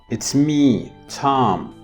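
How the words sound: A pause splits it into two phrases. The speaker's name is Tom. "I'm having two intonation groups. In a way, I'm kind of pausing"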